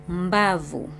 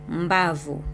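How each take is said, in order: The two takes are said the same way.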